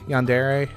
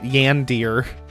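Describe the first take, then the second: First: The word ends with a separate 'eh' syllable. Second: The word ends in a clipped 'ear' sound. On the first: The speaker calls it right. "At least I'm pronouncing it correctly" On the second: The speaker calls it wrong. "I'm not pronouncing it Yandir"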